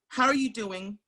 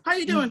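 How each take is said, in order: First: It is said sincerely, with real interest. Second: It is said quickly and casually, in passing.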